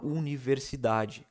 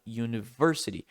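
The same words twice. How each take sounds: First: "universidade" slow, every syllable equal weight; flat Portuguese stress. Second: "university" with a strong stressed "ver"; stress on versity. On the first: Teacher shows flat Portuguese word stress. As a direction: lay each syllable of "universidade" evenly. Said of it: "Bem, bem normal". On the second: Teacher contrasts English stress with Portuguese. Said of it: "esse versity é mais forte". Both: Shown as a demonstration.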